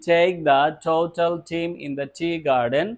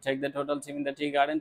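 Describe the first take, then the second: First: The phrase is spoken slowly. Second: The phrase is spoken fast. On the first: "একটু slowly বলি" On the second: "দ্রুত বলার চেষ্টা করব"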